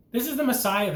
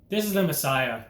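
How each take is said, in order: First: A higher, sneering take on the mocking thief. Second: Said in the usual way. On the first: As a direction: toss the words out as a taunt. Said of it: "one of them said". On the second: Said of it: "he said".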